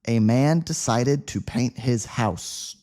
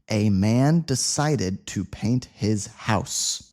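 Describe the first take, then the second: First: The sentence is spoken at a faster pace. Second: The sentence is spoken at a slow pace. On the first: "but a little faster this time" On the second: "Let's say it slowly the first time"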